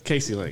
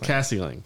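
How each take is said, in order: First: The first vowel sounds like the vowel in 'case'. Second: The first vowel sounds like the vowel in 'cat'. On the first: The speaker calls it wrong. "It's not so Casey Lang either" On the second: The speaker calls it right. "It's Cassie Lang"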